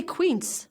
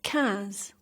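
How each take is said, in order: First: "quinze" wrongly said as kwints; wrong pronunciation. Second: "quinze" as kanz, nasal vowel and no w; correct French pronunciation. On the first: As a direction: show the mistake in "quinze" with a kw sound. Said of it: "Don't say quinze". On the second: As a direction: say "quinze" with a plain k and soft z. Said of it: "but pronounce". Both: Shown as a demonstration.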